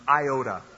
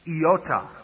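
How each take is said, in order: First: The word is pronounced the English way. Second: The word is pronounced the Greek way. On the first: The speaker calls it wrong. "or we mispronounce it" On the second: The speaker calls it right. "In Greek, it's iota"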